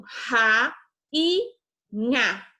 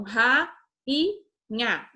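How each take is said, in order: First: "ra e nha" with each syllable said on its own; teacher showing how the word splits; syllables apart. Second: "ra e nha" with each syllable said on its own; teacher showing the split once more; syllables apart. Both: Shown as a demonstration. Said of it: "Rainha se separa assim".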